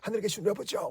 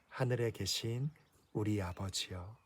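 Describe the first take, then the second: First: It is said fast and carelessly. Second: It is said slowly and calmly.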